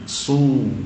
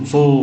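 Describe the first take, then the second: First: The vowel is a clear u sound. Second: The vowel sounds like an o. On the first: The speaker calls it right. "kita jelaskan u" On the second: The speaker calls it wrong. "su seperti o, jangan"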